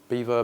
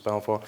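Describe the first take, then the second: First: The name sounds like the word beaver. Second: The name does not sound like beaver. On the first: This is the local form used where the company started. "if you're in the sort of East Midlands area... people tend to call the brand Beaver" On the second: This is the form used everywhere else. "but everywhere else, uh, generally it's, um, it's Belvoir"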